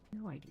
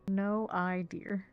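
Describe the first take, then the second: First: It is said fast, run together. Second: It is said slowly, word by word.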